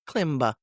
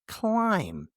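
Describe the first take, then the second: First: The final B is pronounced. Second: The final B is silent. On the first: The speaker calls it wrong. "not klimba" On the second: The speaker calls it right. "the silent B"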